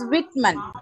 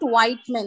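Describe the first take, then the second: First: The first syllable has a short 'i' vowel. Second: The first syllable has a long 'eye' vowel. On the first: The speaker calls it right. "it is Whitman" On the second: The speaker calls it wrong. "It is not Whiteman"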